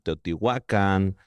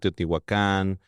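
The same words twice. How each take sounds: First: The stress falls on the second-to-last syllable. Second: The stress falls on the final syllable. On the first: This is the original Nahuatl form. The speaker calls it right. "en el náhuatl en verdad ... son casi todas graves" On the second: This is the Spanish-adapted form. The speaker calls it wrong. "está castellanizado"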